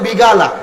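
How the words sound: The middle consonant is a g sound. This is how Saudi Arabians say it. The speaker calls it wrong. "কফকে গাইনের মতো উচ্চারণ করে"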